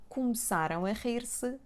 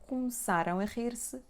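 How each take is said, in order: No difference in how they are said.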